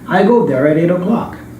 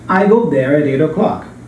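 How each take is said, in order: First: The words run together with linked sounds. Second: The same.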